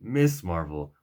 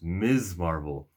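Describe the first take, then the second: First: The first word ends with an s sound. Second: The first word ends with a z sound. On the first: The speaker calls it wrong. "Pronouncing it Miss Marvel would be inaccurate" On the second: The speaker calls it right. "Her name is pronounced Miz Marvel"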